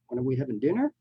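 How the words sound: The pitch rises at the end.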